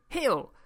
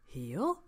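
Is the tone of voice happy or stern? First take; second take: stern; happy. First: The word is said in a harsh, stern tone. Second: The word is said in a warm, happy tone. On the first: The command feels threatening and aversive. The speaker calls it wrong. "not positive sounding, is it?" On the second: The command feels friendly and encouraging. The speaker calls it right. "like that in a really nice, happy tone of voice"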